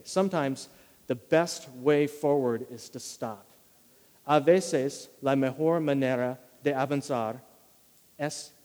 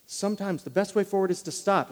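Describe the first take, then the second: First: "Sometimes the best way forward is to stop" slowly, every word weighed; slow key line. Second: Said in the usual way. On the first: Shown as a demonstration. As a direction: lay it down slowly as the main point. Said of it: "If I were gonna distill this idea". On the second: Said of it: "the main point for today".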